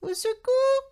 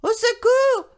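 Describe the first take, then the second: First: It is said in a tiny, quiet voice. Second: It is said in a louder voice.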